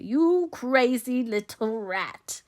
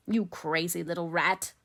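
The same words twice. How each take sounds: First: High, loud, drawn-out insult; very slow contempt. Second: Restrained, menacing insult; slow contempt. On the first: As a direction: stretch out every word venomously. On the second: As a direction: say it with held-back contempt. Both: A narrator's reading. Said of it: "said Favell slowly".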